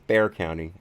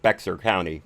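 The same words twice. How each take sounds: First: Bexar is pronounced like the word bear. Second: Bexar is pronounced with its letters as spelled. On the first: The speaker knows the local name. The speaker calls it right. "But it's Bexar County" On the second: The speaker is new to Texas. The speaker calls it wrong. "You can always tell a, a newbie uh, to Texas when they pronounce it Bexar County"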